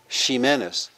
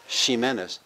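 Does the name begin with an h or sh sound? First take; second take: sh; sh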